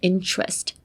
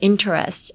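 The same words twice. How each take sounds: First: The middle consonant sounds like ch. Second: The middle consonant is a plain t sound. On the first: The speaker calls it right. "change the t to ch, like interest" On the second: The speaker calls it wrong. "you wouldn't say interest"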